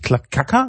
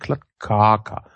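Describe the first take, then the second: First: The K sound is said quickly and clipped. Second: The K sound is said more slowly and fully. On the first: The speaker calls it wrong. "Nicht mit schnellem K. Also nicht Klattkaka" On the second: The speaker calls it right. "sondern Klattkaka"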